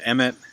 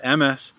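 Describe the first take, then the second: First: The word ends with a t sound. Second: The word ends with an s sound.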